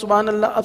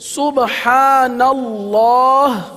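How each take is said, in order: First: The final h is dropped, ending on la. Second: The final h is clearly pronounced at the end. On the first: The speaker calls it wrong. "अब सुभान अल्लाह ला ला ला की आवाज़ आ रही है" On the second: The speaker calls it right. "तो मुकम्मल पढ़ेंगे, हज़फ नहीं करेंगे।"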